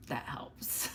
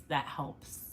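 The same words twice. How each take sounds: First: Whispered aside, much softer. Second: Said in the usual way. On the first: Real, not acted. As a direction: breathe it out as a secret tip. Repeats phrase as whisper.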